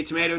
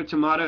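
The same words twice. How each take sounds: First: Tomato said tuh-MAY-toh; American tuh-MAY-toh for tomato; long A pronunciation. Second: Tomato said tuh-MAH-toh; broad A pronunciation. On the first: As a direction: say tomato with an "ay" in the middle. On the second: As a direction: say tomato with an "ah" in the middle. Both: Shown as a demonstration. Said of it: "some people say tomato, tomato".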